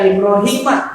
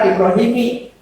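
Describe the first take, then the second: First: The name ends with a short 'a' vowel. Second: The name ends with a short 'i' vowel. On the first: The speaker calls it right. "maka tanda khafadnya fathah" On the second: The speaker calls it wrong. "bukan Ibrahimi"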